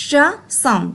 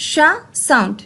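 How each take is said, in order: Both takes have the same delivery.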